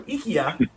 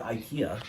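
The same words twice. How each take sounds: First: It is said with a Japanese pronunciation. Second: It is said with an English pronunciation.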